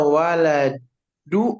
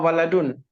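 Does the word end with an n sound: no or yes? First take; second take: no; yes. First: The word ends on a vowel without n. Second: The word ends with an added n sound. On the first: The speaker calls it right. "benar itu waladu" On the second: The speaker calls it wrong. "apa waladun?"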